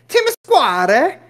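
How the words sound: It is said in an Italian accent.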